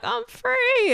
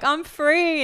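First: Very high, squeaky I'm free; dog's voice. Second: Higher, joyful cry of freedom. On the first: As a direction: voice the happy dog. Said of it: "And he was like". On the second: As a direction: sing it out in relief. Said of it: "I was like". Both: Retold or imitated.

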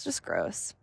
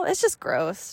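First: Softer trailing repeat; quiet echo. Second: Said in the usual way. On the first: Real, not acted. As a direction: let it fall away under the breath. Repeats the phrase, fading.

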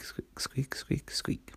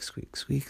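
First: Whispered squeaks. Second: Said in the usual way. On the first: A narrator's reading. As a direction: whisper the squeak sounds softly. Same squeaks, now whispered.

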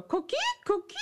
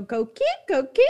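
First: High chirpy frog call; coqui frog call. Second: Coqui frog call. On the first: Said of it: "your mom would go". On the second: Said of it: "the way they chirp is they go". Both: Retold or imitated.

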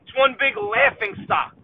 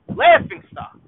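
First: Said in the usual way. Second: Much higher, louder sneering repeat; mocking squeal. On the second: Real, not acted. Fan ridiculing the Jets in a high sneer. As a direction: squeal the phrase in disbelief.

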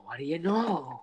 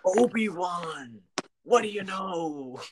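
First: Breathy whispered repeat; whispered echo. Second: Slow, loud, higher alien diner cook; Dexter Jettster voice. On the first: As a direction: whisper the line back. Friend echoes the impression. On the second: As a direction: stretch every word like a burly alien. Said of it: "I could do a solid impression of him". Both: Retold or imitated.

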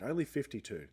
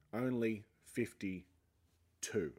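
First: Said in the usual way. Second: Only fifty-two stretched out very slowly, Only drawn long; disbelieving slow repeat of Only fifty-two; slow stressed repeat. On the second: Shown as a demonstration. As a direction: drag out Only fifty-two to let it sink in.

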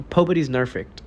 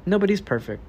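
First: "Pobody's nerfect" with the P and N swapped on purpose; swapped first sounds. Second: Said in the usual way. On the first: Shown as a demonstration. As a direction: say "Pobody's nerfect" as a playful spoonerism. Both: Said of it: "Pobody's nerfect".

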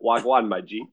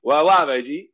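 First: "wagwan" with a clearly sounded g; demonstrated slang pronunciation. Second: Loud "Wagwan" slurred into "wah-wah"; mock a lazy "Wagwan", dropping g and n; botched pronunciation. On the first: Retold or imitated. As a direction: teach "wagwan", both syllables fully formed. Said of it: "trying to teach Brian how to say". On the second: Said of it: "doesn't even attempt to pronounce anything".

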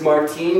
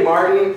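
First: Put-on "Martine" with the stress on a long "teen"; affected pronunciation. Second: Said in the usual way. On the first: Comedian mocking the dude's name, affected stress on Martine. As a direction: put on a fussy Martine, leaning on the end. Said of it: "you go into this Martine bullshit". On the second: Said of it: "if I say Martin".

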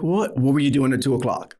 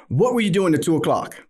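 First: Quick retold echo question; puzzled echo. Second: Higher-pitched urgent question; pressing question. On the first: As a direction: toss the question back, quickly. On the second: Retold or imitated. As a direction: press her for an answer. His own pressing question on phone.

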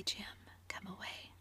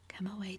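First: Soft pleading whisper. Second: Said in the usual way. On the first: Acted. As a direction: drop to a hush to pull him away. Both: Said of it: "she whispered".

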